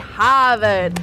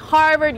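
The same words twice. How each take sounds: First: The R sounds in the word are dropped. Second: The R sounds in the word are pronounced. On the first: "the local Bostonian accent not to pronounce your R's" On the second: "instead of saying Harvard"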